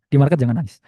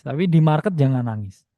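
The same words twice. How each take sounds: First: "market" stressed, whole line said louder; emphatic repeat. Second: Said in the usual way. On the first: Shown as a demonstration. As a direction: drive home "market" as a firm warning.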